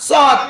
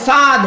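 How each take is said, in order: First: সদ said short as shod; correct pronunciation. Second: সাদ with a long open saad; wrong pronunciation. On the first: Teacher giving the correct letter: সদ said short. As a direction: clip it to a short সদ. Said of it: "সাদ বলি, সাদ". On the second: Teacher showing learners' error: সাদ said as saad. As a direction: stretch it to সাদ, the common mistake. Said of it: "এইখানে ভুল করে কি বলি?". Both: Shown as a demonstration.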